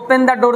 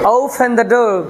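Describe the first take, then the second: First: Open begins without a clear O sound. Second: Open begins with a clear O sound. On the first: The speaker calls it wrong. "অনেক সময় আমরা বলি" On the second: The speaker calls it right. "আসলে ও দিয়ে শুরু হয়েছে"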